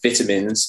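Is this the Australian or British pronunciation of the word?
British. It is said with a British pronunciation. "you're saying vitamins instead of"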